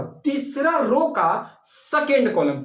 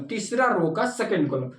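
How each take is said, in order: First: तीसरा रो का second column drawn out word by word, very slow; slow classroom emphasis; slow, spelled-out teaching. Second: Said in the usual way. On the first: Shown as a demonstration. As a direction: lay out तीसरा रो का second column slowly so students can follow.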